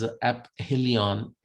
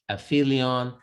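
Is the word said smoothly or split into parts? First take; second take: split; smoothly. First: The word is split with a break after 'a'. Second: The word is said smoothly as one unit.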